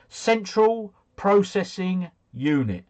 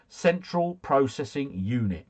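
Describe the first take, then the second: First: Slow, high, each word laid out; slow spelled-out answer. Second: Said in the usual way. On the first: Shown as a demonstration. Quiz host reading the answer to viewers, slow and deliberate. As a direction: give it slowly like reading the answer key.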